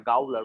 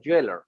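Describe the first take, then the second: First: The word begins with a hard g sound. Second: The word begins with a j sound. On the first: The speaker calls it wrong. "I even I used to like pronounce it like a gowler, but it's not like that" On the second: The speaker calls it right. "they are actually pronouncing it as a jailer"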